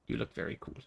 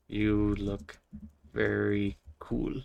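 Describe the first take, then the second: First: Breathy whisper, very soft. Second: Said in the usual way. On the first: Shown as a demonstration. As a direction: whisper it under your breath. Repeats the message softly.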